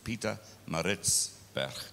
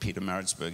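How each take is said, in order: First: The name is said with an Afrikaans pronunciation. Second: The name is said with an English pronunciation. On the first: The speaker calls it right. "Ach nee, Roger, it's Pietermaritzburg" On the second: The speaker calls it wrong. "English people call it Pietermaritzburg"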